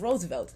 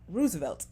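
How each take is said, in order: First: The first vowel is not an 'ooh' sound. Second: The first vowel is an 'ooh' sound. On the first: The speaker calls it right. "the president's name was Roosevelt" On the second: The speaker calls it wrong. "not Roosevelt"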